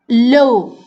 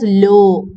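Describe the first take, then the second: First: The vowel glides as a diphthong. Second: The vowel is a single pure sound. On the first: "These are diphthongs" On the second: "It becomes monophthongs"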